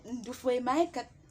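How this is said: It is said as a question.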